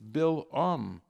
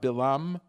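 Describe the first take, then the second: First: A break separates the syllables before the second vowel. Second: The syllables run together smoothly with no break. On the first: The speaker calls it right. "You have to have pronounced the ayin" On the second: The speaker calls it wrong. "It's not"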